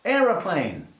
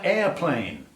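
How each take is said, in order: First: Said in the usual way. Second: "airplane" in two syllables, no middle o; pointedly American "airplane"; American form. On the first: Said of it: "No, in America, airplane". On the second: Shown as a demonstration. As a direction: say "airplane" as AIR-plane, the American way. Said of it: "in America".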